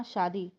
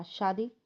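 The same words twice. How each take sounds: First: Said in the usual way. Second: Mildly startled question, rising at the end; surprised question. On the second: A narrator's reading. Groom hears of the wedding plan, mildly surprised. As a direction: ask it in understated disbelief. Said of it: "अभय ने हैरान होते हुए कहा".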